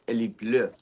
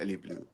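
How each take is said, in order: First: The last word has a French vowel sound. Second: The last word sounds like English blue. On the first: The speaker calls it right. "It's Ellie Bleu" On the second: The speaker calls it wrong. "It's not Ellie Blue"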